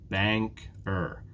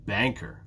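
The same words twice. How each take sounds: First: Banker split with a gap, Bank, er; syllable by syllable. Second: Banker joined up, weight on BANK; stress on first syllable. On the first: Teacher showing two syllables to learners, "Banker" split in two. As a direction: break "Banker" into two separate beats. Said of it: "Banker has two syllables". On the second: Teacher showing the stressed syllable, "Banker" stressed on "Bank". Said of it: "it's the first syllable that's stressed". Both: Shown as a demonstration.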